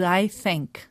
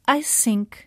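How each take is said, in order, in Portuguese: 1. A palavra 'think' começa com som de th. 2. A palavra 'think' começa sem som de th. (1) "em vez de I think" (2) "não conseguem acertar com um som th e dizem sempre I think"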